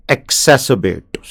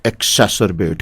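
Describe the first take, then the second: First: "exacerbate" drawn out very slowly syllable by syllable, falling; slow pronunciation demo. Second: Said in the usual way. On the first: Shown as a demonstration. Teacher shows students how to say it, very slow. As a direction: spell out "exacerbate" slowly for learners. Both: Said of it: "सबसे खतरनाक शब्द exacerbate".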